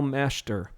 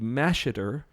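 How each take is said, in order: First: The name is said with two syllables. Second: The name is said with three syllables. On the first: "we're not pronouncing that middle E" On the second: "it would read Masheter, which some of your family pronounces it that way"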